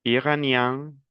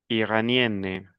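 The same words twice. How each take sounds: First: "Iranien" with a nasal final vowel; model pronunciation. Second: "Iranienne" slowly, with a clear final n; model pronunciation. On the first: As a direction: end "Iranien" through the nose. ("Iranien" con final nasal) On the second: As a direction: sound the n in "Iranienne". ("Iranienne" lento, con la n clara) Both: Shown as a demonstration.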